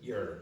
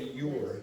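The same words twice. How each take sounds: First: The vowel in your is reduced and weak. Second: The vowel in your is full and clear. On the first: The speaker calls it right. "you'll say your. So this will become the weakened sound" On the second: The speaker calls it wrong. "usually you don't say your"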